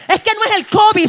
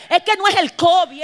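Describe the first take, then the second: First: Higher and louder, preaching climax; building shout. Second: Said in the usual way. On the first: Shown as a demonstration. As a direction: drive covid home with full force. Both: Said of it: "repeats it stronger".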